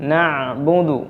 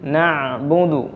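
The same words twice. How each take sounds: First: The ain sound is slightly prolonged. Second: The ain sound is slightly prolonged.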